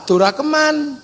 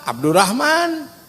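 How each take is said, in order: First: The name is said the Javanese way, Durakeman. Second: The name is said the Sundanese way, Abdurrahman.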